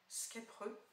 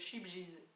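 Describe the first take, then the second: First: The name begins with an sk sound. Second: The name begins with an sh sound. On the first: The speaker calls it right. "je crois qu'on le prononce euh" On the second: The speaker calls it wrong. "je l'ai très longtemps pro, euh, prononcé euh, comme ceci"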